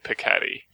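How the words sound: The name is said with an English pronunciation. The speaker calls it wrong. "just with my regular accent, I'm going to say Piketty"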